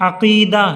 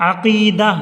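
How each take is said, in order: The two takes are said the same way.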